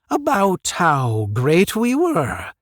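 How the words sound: It is said as a questioning line.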